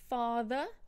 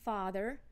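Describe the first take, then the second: First: The final R is not pronounced. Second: The final R is clearly pronounced. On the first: "we do not pronounce the R if it's at the end of a word" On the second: "what would these words sound like with a rhotic accent"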